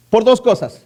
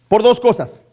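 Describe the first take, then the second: No difference in how they are said.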